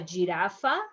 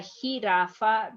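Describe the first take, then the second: First: It starts with an English J sound. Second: It starts with a breathy H sound. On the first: The speaker calls it wrong. "is not a giraffa" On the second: The speaker calls it right. "is a jirafa because remember, ha"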